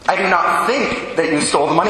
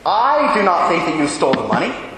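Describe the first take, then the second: First: The stress is on the word think. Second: The stress is on the word I.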